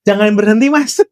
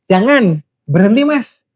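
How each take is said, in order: First: It is said without a pause after the first word. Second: There is a pause after the first word. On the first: Keep going; don't stop. "Itu pasti ya jangan berhenti" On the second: Don't go on; please stop. "kalau jangan berhenti mas, berarti kan jangan dulu, terus tolong berhenti"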